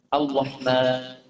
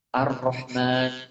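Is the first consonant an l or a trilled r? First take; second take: l; trilled r. First: The consonant is an l without trill. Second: The consonant is a trilled r. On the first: "Antum ngucapin r dihilangkan jadi l" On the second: "Antum bilang l digetarkan jadi r"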